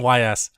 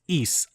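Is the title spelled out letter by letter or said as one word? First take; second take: letters; one word. First: It is spelled out as two letters. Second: It is said as one word, like ease. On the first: The speaker calls it wrong. "I was wrong. It's not Y S" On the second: The speaker calls it right. "Like you're saying east, but without the T"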